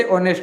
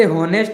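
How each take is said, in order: First: ऑनेस्ट with a silent h, opening on the vowel; correct pronunciation. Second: हॉनेस्ट with a sounded h at the start; spelling pronunciation. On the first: Teacher giving the class the spoken form, silent h. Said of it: "लेकिन बोलते ऑनेस्ट हैं". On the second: Teacher showing the class the written form, h sounded. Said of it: "लिखते हॉनेस्ट हैं". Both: Shown as a demonstration.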